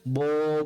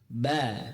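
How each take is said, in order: First: The letter is said thick, with a rounded vowel. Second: The letter is said thin, with an open vowel. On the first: The speaker calls it wrong. "Jangan kita baca bo" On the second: The speaker calls it right. "ba tipiskan"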